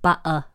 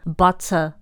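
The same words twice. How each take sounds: First: The t sound is dropped. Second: The t sound is pronounced.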